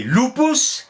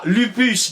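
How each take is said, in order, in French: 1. Les voyelles sonnent comme oo. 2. Les voyelles sonnent comme le u français. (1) "U prononcé ou" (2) "ils ne disaient pas lupus"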